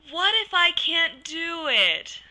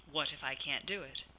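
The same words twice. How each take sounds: First: High, slow, loud whine; whiny dramatic doubt. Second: Said in the usual way. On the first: Shown as a demonstration. Counselor demonstrating a silly doubt voice, whiny and dramatic. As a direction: wail the doubt like a whiny child. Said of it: "Using a whiny, dramatic voice". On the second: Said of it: "come up with an opposite way to phrase the doubt".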